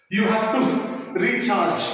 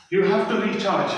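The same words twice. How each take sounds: First: Said in the usual way. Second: You have to recharge drawn out very slowly word by word; slow emphasis. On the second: Shown as a demonstration.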